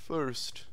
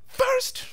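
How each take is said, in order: First: The word is said flatly, without energy. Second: The word is said sharply, with exclamatory energy. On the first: The speaker calls it wrong. "You can't just be like first" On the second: The speaker calls it right. "It has to be snap first"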